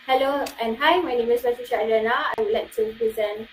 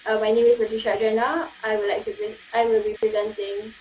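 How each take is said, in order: First: Lively intro with shifting pitch; varied tones. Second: Flat, rushed, droning self-intro; stagnant monotone. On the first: Student shows the lively way to introduce yourself, varied tone. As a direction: let the pitch move as you greet. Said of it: "the other one is like". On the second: Student shows the dull way to introduce yourself, monotone. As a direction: drone it like a bored presenter. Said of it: "do not use a stagnant voice like this". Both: Shown as a demonstration.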